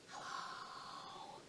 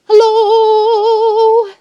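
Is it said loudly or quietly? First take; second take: quietly; loudly. First: It is said very quietly. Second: It is said very loudly.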